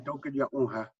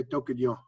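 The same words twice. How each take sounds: First: Tokyo unha with every syllable given; full form. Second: Tokyo as the quick spoken form; short form. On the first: Teacher spells out the full form behind the short one, careful. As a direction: say Tokyo unha fully and evenly. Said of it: "I'm saying". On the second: Teacher shows what he really says, clipped. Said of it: "what I'm really saying". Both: Shown as a demonstration.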